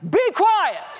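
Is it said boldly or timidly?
boldly. It is said boldly, with loud authority.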